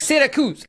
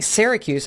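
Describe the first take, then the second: First: Syracuse with a tapped Italian r, pitched up; higher, Italian-accented "Syracuse". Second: Said in the usual way. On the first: Retold or imitated. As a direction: say "Syracuse" as an Italian would, "See-ra-koos". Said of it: "putting it in an Italian accent". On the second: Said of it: "instead of just saying Syracuse".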